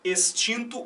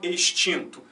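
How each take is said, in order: First: The x sounds like an s. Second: The x sounds like an sh. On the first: This is how it is said in some regions. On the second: This is how it is said in other regions. "ou chiado"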